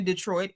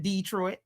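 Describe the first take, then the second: First: Detroit stressed on the second syllable; standard Detroit. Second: Detroit with a long stressed DEE; front-load Detroit as DEE-troit. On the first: Host appealing to Dana Brown, standard pronunciation. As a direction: say Detroit plainly as de-TROIT. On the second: Host appealing to a fellow Detroiter, DEE-troit pronunciation. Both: Shown as a demonstration. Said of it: "it's a difference in Detroit".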